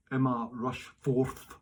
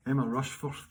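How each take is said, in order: First: Rushforth spelled out slowly, syllable by syllable; careful name. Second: Said in the usual way. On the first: Shown as a demonstration. Reading a viewer's name, slow and careful to get it right. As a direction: say Emma Rushforth slowly, testing each sound. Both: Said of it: "I hope I got your second name right".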